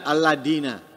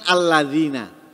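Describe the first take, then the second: First: The middle consonant is a plain d sound. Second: The middle consonant is a soft th-like sound. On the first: The speaker calls it wrong. "diganti dal alladina" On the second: The speaker calls it right. "mestinya kan alladzina"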